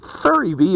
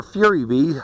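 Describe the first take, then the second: First: "Furry Bee", first word rhyming with hurry; pronounced FURRY. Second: "Fury Bee", first word sounding like FYOO-ree; pronounced FURY. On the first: Reviewer unsure of the brand name, trying it as "Furry". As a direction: say "Furry" with the vowel of "fur". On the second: Reviewer unsure of the brand name, offering the alternative "Fury". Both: Shown as a demonstration. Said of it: "I don't know how to pronounce that".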